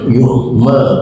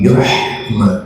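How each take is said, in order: First: The h sound is soft and light. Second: The h sound is sharp and breathy. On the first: The speaker calls it wrong. "bukan yuhma" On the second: The speaker calls it right. "Tolong tajamkan haknya, tapi yuhma"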